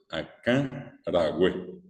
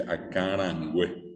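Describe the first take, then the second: First: Slow "acarangüe" as aká-ragüé, no N; correct pronunciation. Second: "acarangüe" with an N sound before güe; common mispronunciation. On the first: Teacher gives students the correct word, slow "acarangüe" with no N before güe. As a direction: say "acarangüe" without the N, drawn out in two parts. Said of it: "Entonces lo correcto es". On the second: Teacher quotes what many people say, "acarangüe" with the extra N. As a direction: say "acarangüe" nasalised, ending -ran-güe. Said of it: "Fíjense que mucha gente dice acarangüe". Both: Shown as a demonstration.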